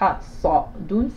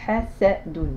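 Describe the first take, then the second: First: The first consonant is an emphatic, heavy s. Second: The first consonant is a plain, light s. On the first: The speaker calls it wrong. "C'est pas hasadun" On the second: The speaker calls it right. "c'est bien la lettre sin"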